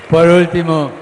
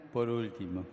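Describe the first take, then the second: First: Shouted high over the crowd; loud call. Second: Quiet. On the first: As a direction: call it out loudly to win attention. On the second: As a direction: say it softly, almost to yourself. Repeats it quietly. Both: Real, not acted.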